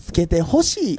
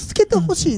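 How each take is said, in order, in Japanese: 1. ぎこちなくて、少し外れた関西弁のイントネーションです。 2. 普通で自然な関西弁のイントネーションです。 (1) "ちょっと外した感じの" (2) "助けてほしいじゃなくて"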